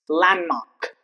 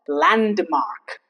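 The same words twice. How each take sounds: First: The D sound is silent. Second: The D sound is pronounced. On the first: The speaker calls it right. "It's landmark" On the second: The speaker calls it wrong. "It's not landmark"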